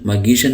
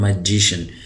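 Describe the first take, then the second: First: The middle consonant is a hard g. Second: The middle consonant is a j sound. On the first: The speaker calls it wrong. "इसको मगीशन मगीशन नहीं पढ़ रहा" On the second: The speaker calls it right. "मैं इसको पढ़ रहा हूँ मजीशन"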